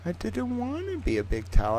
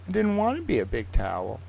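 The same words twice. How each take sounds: First: High, soft, put-on sad voice; mock whimper. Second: Said in the usual way. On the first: Streamer lamenting becoming a big towel, high and soft.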